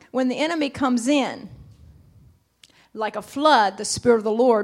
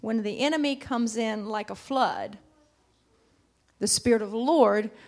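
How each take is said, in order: First: The pause comes after "comes in". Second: The pause comes after "like a flood". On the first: The Spirit of the Lord comes like a flood. "I want to say it like this morning" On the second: The enemy comes in like a flood. "we always say that scripture like this"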